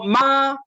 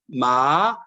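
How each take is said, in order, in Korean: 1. 음높이가 높고 평평하게 유지돼요. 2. 음높이가 낮게 내려갔다가 올라가요.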